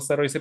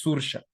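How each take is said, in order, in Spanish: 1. Se lee siguiendo su ortografía de aspecto inglés. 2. Se dice con su pronunciación nativa irlandesa. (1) "tú dices Saroise y le quieres decir de miles de formas" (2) "pero escuchas es Saoirse"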